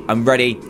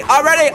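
First: Said in the usual way. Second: Much higher, louder I'm ready; psyched-up cry before the onslaught; high keyed-up shout. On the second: Real, not acted. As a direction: yell it, wound up.

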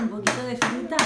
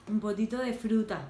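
First: "¿Un poquito de fruta?" asked with a rise on "fruta"; asking tune. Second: "Un poquito de fruta." said softer, falling on "fruta"; falling confirmation. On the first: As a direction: lift "fruta" at the end like a question. ("fruta" con entonación de pregunta, subiendo al final) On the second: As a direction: drop "fruta" as a calm answer. ("fruta" cayendo, en tono de afirmación) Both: Real, not acted.

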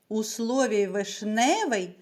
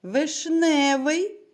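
First: Said in the usual way. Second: "вишневий" drawn out slowly, loud, leaning on "не"; "вишневий" said loud and slow, second syllable lifted; stressed slowly. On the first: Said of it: "наголос падає на другий склад". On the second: Shown as a demonstration. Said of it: "на який склад падає наголос у слові".

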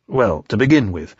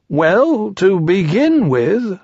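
First: Said in the usual way. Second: High, slow bear voice; high drawn-out bear; Pooh. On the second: A narrator's reading. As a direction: begin ponderously in a raised storybook voice. Pooh starts explaining.

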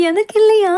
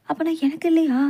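First: Loud, high burst of delight; overjoyed, louder and higher; excited. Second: Said in the usual way. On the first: Acted. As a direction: blurt it out in sheer joy. Same question, now shouted in joy.

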